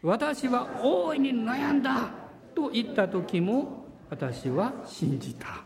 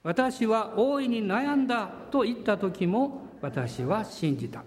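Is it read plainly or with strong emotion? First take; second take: emotional; plainly. First: It is read with earnest, heartfelt emotion. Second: It is read plainly, without special feeling.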